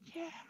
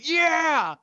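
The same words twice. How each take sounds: First: It is whispered. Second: It is said out loud.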